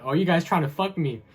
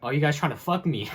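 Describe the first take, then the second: First: Loud, high imitation of the boss again; mock angry yell. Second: Loud, high imitation of the boss yelling; mock angry yell. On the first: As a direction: shout it like the red-faced boss. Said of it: "I remember he said". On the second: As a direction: belt it out like the furious boss. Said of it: "yelling at me".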